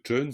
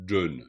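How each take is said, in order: First: The word begins with a voiceless ch sound. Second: The word begins with a voiced j sound. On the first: "vous verrez que chun" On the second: "ça se dit plutôt jun"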